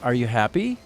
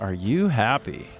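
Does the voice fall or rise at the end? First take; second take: rise; fall. First: The voice rises at the end. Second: The voice falls at the end. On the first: It asks a real question. "ending up like" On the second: The listener is noticed to be happy, with amazement. "it's a statement, you are happy and I notice it and I'm amazed"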